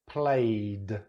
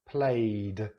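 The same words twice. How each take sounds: No difference in how they are said.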